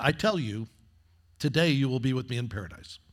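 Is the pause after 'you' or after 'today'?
after you. The pause comes after the first you.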